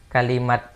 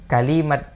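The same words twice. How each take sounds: The two takes are said the same way.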